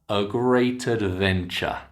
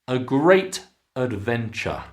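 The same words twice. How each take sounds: First: The T runs into the next word. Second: The words are said separately.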